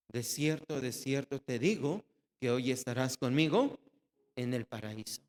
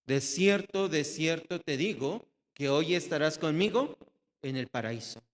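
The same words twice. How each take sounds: First: Tender promise. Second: Proclaiming promise. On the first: Same promise repeated, tenderly. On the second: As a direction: announce it boldly like a solemn vow. Jesus's promise proclaimed aloud. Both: Acted.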